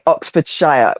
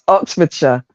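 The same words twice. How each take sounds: First: The final syllable is pronounced fully. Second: The final syllable is reduced and weak. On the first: This is how outsiders say it. The speaker calls it wrong. "You guys would say Oxfordshire" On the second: This is how locals say it. The speaker calls it right. "It's Oxfordshire"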